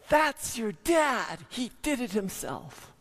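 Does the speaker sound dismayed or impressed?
impressed. It is said in an impressed, proud tone. The work was done well. "she says"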